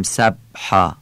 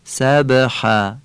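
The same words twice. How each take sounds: First: سبحا with a flat, still ب; no qalqala. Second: سبحا slowly, ب given a small bounce; qalqala. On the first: Teacher showing the wrong reading. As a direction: say سبحا with no bounce on the ب. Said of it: "نمیگیم". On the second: Teacher demonstrating the qalqala echo. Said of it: "یعنی تکان کوچک". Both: Shown as a demonstration.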